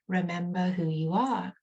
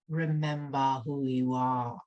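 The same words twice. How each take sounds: First: It is said in an ordinary voice. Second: It is said in a deep, stern voice.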